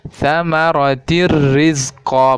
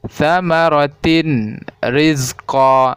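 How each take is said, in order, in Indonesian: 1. Bunyi n menyatu menjadi bunyi r yang digandakan. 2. Bunyi n yang jelas terdengar sebelum r. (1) "seolah-olah ada yang ditasdidkan ke huruf ro" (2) "bukan ... Salah itu ya"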